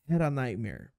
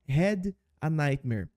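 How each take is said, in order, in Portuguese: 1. 'Had' e 'a' se juntam e viram uma palavra só. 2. 'Had' e 'a' são pronunciadas como palavras separadas.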